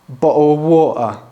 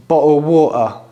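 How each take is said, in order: Both takes have the same delivery.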